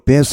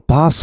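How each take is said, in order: First: It is said with an American pronunciation. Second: It is said with a British pronunciation. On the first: "미국 사람들은 대체로 베스 하는 것 같습니다" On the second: "영국 사람들은 대체로 바스 하는 것 같습니다"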